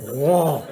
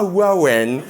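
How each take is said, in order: First: The name is said with a French pronunciation. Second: The name is said with an English pronunciation. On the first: The speaker calls it right. "c'est Rouen" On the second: The speaker calls it wrong. "c'est pas Rowan"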